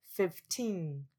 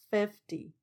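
First: Put-on fifteen with teen long and falling; stress on TEEN. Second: Fifty with stress on the first syllable, light ty. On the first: (fifteen 重音放在第二音节 teen) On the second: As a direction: lean on fif in fifty. (fifty 重音放在第一音节) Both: Shown as a demonstration. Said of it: "其他也都是一样".

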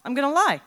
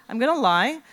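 First: First take loud and high, falling on lie; eager scheming. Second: Gonna stressed, rising at the end. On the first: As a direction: blurt the plan with excitement. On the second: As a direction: repeat it, leaning on gonna with a rise. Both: Retold or imitated. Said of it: "my next thought was".

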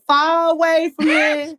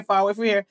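First: Slow, higher D C crowd singalong; D C crowd accent. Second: Said in the usual way. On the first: Retold or imitated. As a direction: drag it out like a hometown D C crowd. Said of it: "the crowd starts singing Far Away". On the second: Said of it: "all the music goes off like".

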